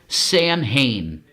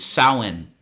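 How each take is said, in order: First: The word is pronounced as spelled, Sam Hain. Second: The word is pronounced differently from its spelling. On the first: The speaker calls it wrong. "as we say it as Americans" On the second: The speaker calls it right. "the way you pronounce it is"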